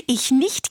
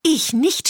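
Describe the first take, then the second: First: Higher, giggly refusal; giggling cat. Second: High, huffy duck refusal; snorting duck. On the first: Cat refuses to help the hen bake, giggling. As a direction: refuse through a little giggle. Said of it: "kicherte die Katze". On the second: Duck refuses to help bake, snorting. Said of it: "schnaubte die Ente". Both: A narrator's reading.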